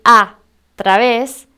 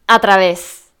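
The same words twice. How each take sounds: First: "a través" with a long gap after a loud "a"; two separate words. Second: "a través" joined as one word, no gap; run together. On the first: Correcting how others write it, "a" and "través" slowly split apart. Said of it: "En vez de escribir". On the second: Showing how others write it todo junto, "a través" run together. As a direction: say "a través" in one go, without a pause. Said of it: "todo junto". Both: Shown as a demonstration.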